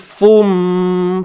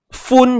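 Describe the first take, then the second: First: The syllable ends with a nasal m sound. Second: The syllable ends with a clear n sound. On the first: The n has merged into the following m. "Tapi dah adanya idgham, unsur idgham masuk. Fun jadi fum" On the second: This is the original form before merging. "Asalnya fun"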